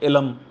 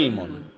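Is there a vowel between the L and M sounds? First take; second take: yes; no. First: A vowel is heard between the L and M. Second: No vowel is heard between the L and M. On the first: The speaker calls it wrong. "ये भी बाज लोग गलत पढ़ते हैं" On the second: The speaker calls it right. "लाम साकिन है"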